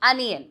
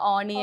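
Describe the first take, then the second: First: The word begins with an 'uh' vowel. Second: The word begins with an 'oh' vowel. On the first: The speaker calls it right. "It's actually അനിയൻ" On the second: The speaker calls it wrong. "ഓണിയൻ എന്ന് പറയും"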